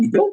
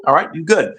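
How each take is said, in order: First: You good? rising as a question; asking tune. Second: You good falling as a statement; settled tune. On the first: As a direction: lift You good? at the end to ask. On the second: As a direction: drop you good at the end to confirm. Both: Real, not acted.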